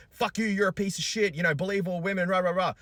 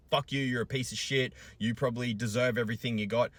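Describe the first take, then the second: First: High, loud shrill mimic of hostile women; mocking commenters. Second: Higher sneering mimic of hostile commenters; mocking commenters. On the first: Father mocking hostile women commenters, loud high sneer. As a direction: sneer their chant back mockingly. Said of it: "females ... that were like". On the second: Father mimicking hostile women in his comments, sneering. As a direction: throw their insults back with scorn. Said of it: "females that came into those comments going".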